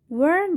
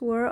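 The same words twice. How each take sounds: First: The word is stressed with a full vowel. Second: The word is unstressed with a reduced vowel. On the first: "екпін бірінші сөзге түсіп тұрғандығы үшін strong forms болады" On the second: "Үшінші сөйлемде weak forms"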